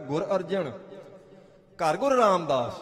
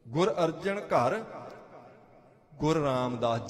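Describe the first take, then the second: First: The pause comes after the word Arjan. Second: The pause comes after the word ghar.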